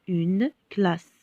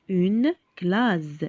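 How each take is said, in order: First: "classe" ending on a hissed S; correct S sound. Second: "classe" said "claze", with a buzzing final Z; misread with Z. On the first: Teacher reading the word with double S, "classe" with a clear S sound. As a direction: say "classe" with a voiceless final S. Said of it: "avec deux S". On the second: Teacher showing how one S would read, "classe" with a Z sound. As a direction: say "classe" ending on a voiced Z. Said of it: "Quand on a un seul S". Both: Shown as a demonstration.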